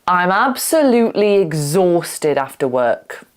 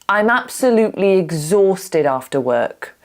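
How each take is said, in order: No difference in how they are said.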